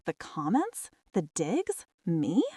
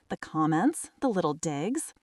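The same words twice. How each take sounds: First: Mildly stunned echo, COMMENTS and DIGS as questions; open-mouthed disbelief. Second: Said in the usual way. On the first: A narrator's reading. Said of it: "My mouth actually hung open". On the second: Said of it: "Ava huffed".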